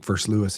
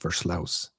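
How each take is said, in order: First: The name is said with an English pronunciation. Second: The name is said with a Dutch pronunciation. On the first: The speaker calls it wrong. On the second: The speaker calls it right.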